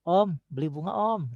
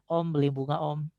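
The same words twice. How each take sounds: First: It is read with lively, varied melody. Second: It is read flat, without any melody. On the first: The speaker calls it right. "harusnya kan" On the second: The speaker calls it wrong. "nggak ada nadanya"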